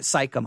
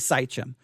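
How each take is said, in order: First: The name is said with a K sound. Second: The name is said without a K sound. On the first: The speaker calls it wrong. "It's not Sychem. I want to put a K there" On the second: The speaker calls it right. "I think it is Sychem"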